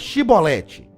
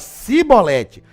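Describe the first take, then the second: First: The word begins with an 'sh' sound. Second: The word begins with an 's' sound. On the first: The speaker calls it right. "Então fala aí, chibolete" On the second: The speaker calls it wrong. "não dava pra falar chibolete, ele falava cibolete"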